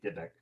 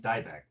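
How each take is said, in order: First: The name is said with Polish pronunciation. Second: The name is said in another anglicized way. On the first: This is the original Polish form. "really Polish it would be" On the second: This is how the author says his own name. "he pronounces his name"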